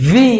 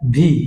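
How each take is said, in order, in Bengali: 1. প্রথম ধ্বনিটি নিচের ঠোঁট উপরের দাঁতের উপর রেখে তৈরি হয়। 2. প্রথম ধ্বনিটি দুই ঠোঁট দিয়ে তৈরি হয়। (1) "right pronunciation ... লয়ার lip upper teeth will touch" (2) "wrong pronunciation"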